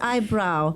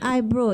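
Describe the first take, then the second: First: The second syllable sounds like 'brow'. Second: The second syllable sounds like 'brew'. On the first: The speaker calls it right. "it's eyebrow" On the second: The speaker calls it wrong. "That is wrong. Not eyebrow"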